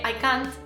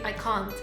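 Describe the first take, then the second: First: The vowel in can't is not British-sounding. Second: The vowel in can't sounds British. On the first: The speaker calls it wrong. "que hay gente que dice así" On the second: The speaker calls it right. "que es más inglés"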